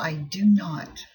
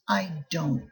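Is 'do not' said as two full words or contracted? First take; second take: full; contracted. First: Do not is said as two separate words. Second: Do not is contracted into one word. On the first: "short negative answer" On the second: "Most of the time we use contraction"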